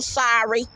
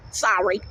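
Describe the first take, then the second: First: Said in the usual way. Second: Lower, sincere second sorry; sincere apology. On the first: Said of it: "And if you're bisexual, sorry". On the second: Shown as a demonstration. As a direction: say sorry again and mean it.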